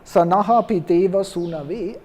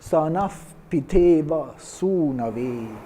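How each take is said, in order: First: The first word ends with an extra aha syllable. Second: The first word ends in a breath, no vowel. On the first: It adds a syllable and breaks the meter. The speaker calls it wrong. "I don't say sanaha" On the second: It keeps the syllable count of the meter. The speaker calls it right. "That's why I don't pronounce it"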